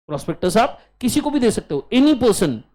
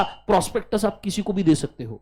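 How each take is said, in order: First: Faster and louder, stress on भी; repeated with emphasis. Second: Said in the usual way. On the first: Shown as a demonstration. Teacher repeats to class, stressing भी. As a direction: punch भी as you repeat it. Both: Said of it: "repeated to the class".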